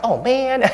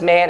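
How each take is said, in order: First: High, exasperated oh man; dismayed oh man. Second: Said in the usual way. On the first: Shown as a demonstration. Pastor showing what Jesus did not mean, a high exasperated oh man. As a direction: sigh it out as a complaint, high. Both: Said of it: "it's not like".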